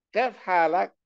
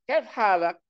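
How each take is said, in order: The two takes are said the same way.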